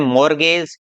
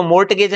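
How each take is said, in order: First: मॉर्गेज going from R straight to G; silent T. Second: मॉर्टगेज with an audible T before G; T wrongly sounded. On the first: Teacher models the correct word, मॉर्गेज without any T. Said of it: "इसको बोलते हैं". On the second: Teacher rejects this form, मॉर्टगेज with T spoken. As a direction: say मॉर्टगेज pronouncing the T, quickly. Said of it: "नहीं बोलते हैं". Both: Shown as a demonstration.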